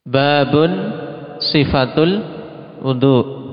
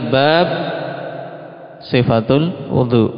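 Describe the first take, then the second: First: Bab ends in u followed by n. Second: Bab ends bare, with no final vowel. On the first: This is a chapter, the description of ablution. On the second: The word is counted like a list heading without case.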